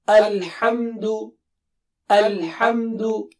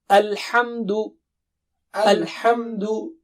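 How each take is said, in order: No difference in how they are said.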